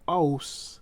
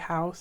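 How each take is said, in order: First: The word begins with no h sound. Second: The word begins with a clear h sound. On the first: "it will sound like" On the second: "if you say house"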